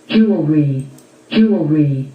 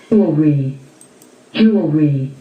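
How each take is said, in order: No difference in how they are said.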